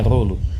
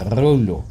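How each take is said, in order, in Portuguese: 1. O som do L é curto, como um L só. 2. O som do L é longo, pronunciado como L duplo. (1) "Não é como se um fosse mudo, não é rolo" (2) "Os dois L's são pronunciados"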